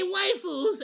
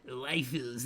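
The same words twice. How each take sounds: First: The word sounds cheerful and playful. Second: The word sounds creepy and leering. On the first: It is a harmless joke. The speaker calls it right. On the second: It gives an unsettling, icky impression. The speaker calls it wrong. "why you say it like that?"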